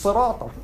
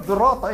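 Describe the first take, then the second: First: "sirata" begun with an emphatic "s"; "s" reading. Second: "dirata" begun with a voiced "dh" sound; voiced "dh" reading. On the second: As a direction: say "dirata" as "dhirata", no "s". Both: Shown as a demonstration. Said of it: "jump on him and say".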